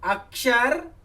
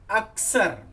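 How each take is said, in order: First: The middle cluster is pronounced with a 'ksh' sound. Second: The middle cluster is pronounced with a plain 's'. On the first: "अक्षर का उच्चारण" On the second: "यदि हम अक्षर का उच्चारण अक्सर करेंगे तो अक्षर की वर्तनी शुद्ध नहीं लिख सकते"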